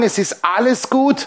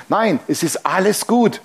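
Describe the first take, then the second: First: "Es ist alles gut" said slowly and higher, pitched as a call for the church to echo; slow, raised preacher's call to the church; call for the congregation to repeat. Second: Said in the usual way. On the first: Shown as a demonstration. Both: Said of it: "Können wir das mal sagen?".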